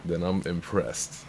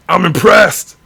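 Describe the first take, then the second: First: Soft, low and slowed; murmured under his breath; quiet. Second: Loud, high exclamation; excited. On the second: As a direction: burst out with real delight. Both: Real, not acted.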